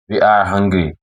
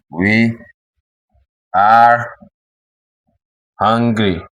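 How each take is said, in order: First: Said in the usual way. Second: "We", "are", "hungry" each separated by a long pause; word by word. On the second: Shown as a demonstration. Teacher dictating to beginners, "We are hungry" word by word.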